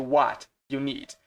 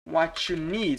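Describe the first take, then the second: First: What and you are said as separate words. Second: What and you run together into one sound. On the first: "ao invés de what you need" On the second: "quando você está falando rápido... you vira tipo um what you"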